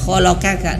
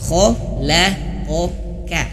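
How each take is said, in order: First: Both the middle and final k are light. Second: The middle k is heavy, the final k light. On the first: The speaker calls it wrong. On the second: The speaker calls it right. "qafnya ini ada dua, qaf dan kaf ya. Jadi tebal dan tipis"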